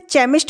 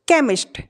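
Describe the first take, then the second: First: The word begins with a ch sound. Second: The word begins with a k sound. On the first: The speaker calls it wrong. "इसे चेमिस्ट नहीं पढ़ेंगे हम" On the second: The speaker calls it right. "इसका उच्चारण होगा का"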